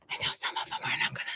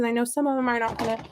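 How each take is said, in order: First: Hushed, voiceless aside; mock-secret whisper. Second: Said in the usual way. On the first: Gardener keeping bad news from her seedlings, mock-secret whisper. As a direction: whisper it so the plants can't hear.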